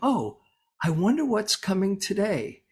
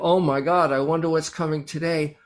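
First: It sounds curious and open to adventure. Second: It sounds full of dread and worry.

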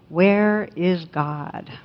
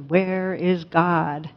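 First: It is said sternly but at moderate volume. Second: It is said more sternly and more forcefully.

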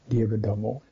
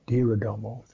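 Both takes have the same delivery.

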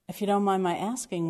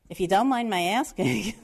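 First: It is said in a neutral accent. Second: It is said in a heavy New York accent.

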